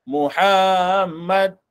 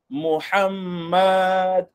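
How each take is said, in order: No difference in how they are said.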